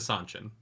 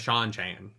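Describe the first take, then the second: First: The name begins with an 's' sound. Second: The name begins with a 'sh' sound. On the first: This is how the book club says the name. The speaker calls it right. "That's how we call it on the book club" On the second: This is how the show says the name. The speaker calls it wrong. "I'm not going to call them the Shan Chan"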